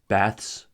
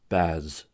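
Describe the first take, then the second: First: The ending is voiceless, like th plus s. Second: The ending is voiced, like th plus z. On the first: "the voiceless consonant cluster ths" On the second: "the voiced consonant"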